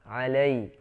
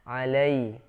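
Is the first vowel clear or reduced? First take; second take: clear; clear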